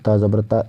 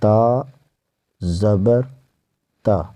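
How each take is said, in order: First: All three parts run together without pauses. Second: The three parts are separated by short pauses. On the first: The speaker calls it wrong. "एक बार में नहीं" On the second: The speaker calls it right. "तीन step हो गई"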